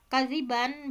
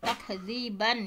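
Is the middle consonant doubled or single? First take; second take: single; doubled. First: The middle consonant is short and single. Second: The middle consonant is held long and doubled. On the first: "bitakhfif ya, tidak ada tasydid"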